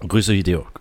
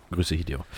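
First: Said in the usual way. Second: Leiser und tiefer nachgeschoben; leise. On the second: Acted. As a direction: wie ein gemurmeltes Echo. Gruß wiederholt, leiser nachgeschoben. (leise Wiederholung)

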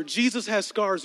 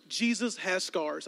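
First: Slow, weighty emphasis on Jesus; emphatic. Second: Slow, soft repeat of Jesus has scars; hushed. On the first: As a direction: lean on Jesus. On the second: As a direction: say it softly, letting it sink in. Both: Shown as a demonstration.

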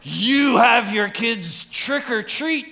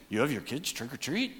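First: High, slow, scandalized question; mock shock. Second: Softer, as if only thinking it; quiet inner thought. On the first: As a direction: gasp it out like an appalled church member. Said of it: "that's terrible". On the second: Retold or imitated. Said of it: "some of you thinking".

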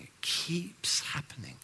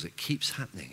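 First: Whispered repeat of "It keeps happening.". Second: Quiet. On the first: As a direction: breathe "It keeps happening." unvoiced and slow. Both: Shown as a demonstration.

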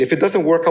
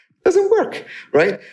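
First: "doesn't" stressed, a little raised and firm; matter-of-fact demanding consumer; indignant. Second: "doesn't" shot up very high in mock outrage; outraged. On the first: Retold or imitated. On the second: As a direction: squeal "It doesn't work" in disbelief. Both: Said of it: "they seem to have the attitude".

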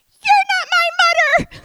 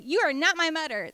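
First: Put-on very high, very loud toddler yell; little sister yelling at her brother, shrill and full-voiced; shouting. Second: Said in the usual way. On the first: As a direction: scream it as a furious little girl. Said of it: "And all I hear is". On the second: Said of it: "we say".

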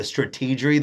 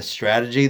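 First: Bush-style "strategery", added "er" before the last syllable; strategery mispronounced. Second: Said in the usual way. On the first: Shown as a demonstration. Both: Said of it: "the strategery that he was laying out".

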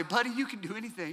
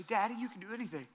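First: Softer, encouraging father's voice; tender dad. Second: Lightly voiced child parroting, softer and quick; a hint of a toddler repeating "Daddy, you can do anything." fast; son echoing. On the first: Retold or imitated. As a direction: reassure your little boy gently. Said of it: "I'll say". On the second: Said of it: "he'll say".

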